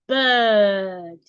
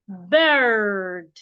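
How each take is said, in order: First: The vowel is long with no r sounded. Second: The vowel is long with the r sounded. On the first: "A British person will say bird" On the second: "an American person will say bird"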